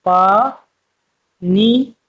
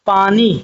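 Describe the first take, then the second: First: पानी broken into पा and नी with a pause between; split into syllables. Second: Said in the usual way. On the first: Shown as a demonstration. Teacher breaking पानी into syllables for new learners. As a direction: say पा, stop, then नी. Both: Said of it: "इनको देखो कैसे पढ़ेंगे".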